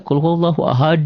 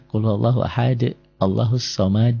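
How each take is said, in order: First: High, louder chanted "Qul huwallahu ahad"; qari-style recitation. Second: Measured chant at normal pitch with bounced final d; murotal recitation. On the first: Teacher showing what qaris rarely do, high qari-style recitation. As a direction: lift it like a competition reciter, bouncing the final d. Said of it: "Nggak ada yang qori-qori". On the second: Teacher showing how murotal makes qalqalah clear, measured recitation. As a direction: recite plainly, releasing each final d in qalqalah. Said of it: "kalau murotal coba lihat ya". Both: Shown as a demonstration.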